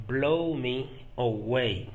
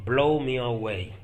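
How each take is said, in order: First: "Blow me away" drawn out in separate parts; slow it down, pausing after "Blow me"; careful, slow teaching pace for "Blow me away"; slow repetition. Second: Said in the usual way. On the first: Shown as a demonstration. Teacher repeats phrase slowly for learners.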